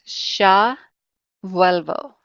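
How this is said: The first word starts with a 'sh' sound. "with my Castellano accent, I would say sha"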